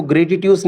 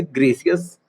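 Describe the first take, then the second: First: ग्रेटिट्यूस with a hard t in the middle; ग्रेटिट्यूस read out letter for letter; spelling pronunciation. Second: ग्रेसियस, the middle softened to an s sound; corrected pronunciation. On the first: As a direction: say ग्रेटिट्यूस as spelt, sounding both t's. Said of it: "इसको ग्रेटिट्यूस नहीं बोलेंगे हम". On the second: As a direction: say ग्रेसियस as gray-si-yus. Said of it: "क्या बोलेंगे? ग्रेसियस". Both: Shown as a demonstration.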